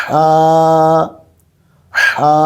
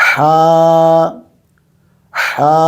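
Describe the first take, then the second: The two takes are said the same way.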